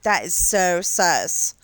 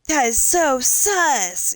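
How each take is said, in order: First: It is said in a scornful, disapproving tone. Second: It is said in an impressed, approving tone. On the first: Something is bad. "Like it sucks. It it's not good" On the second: Something is cool. "like it's so cool, you know, so awesome, so radical"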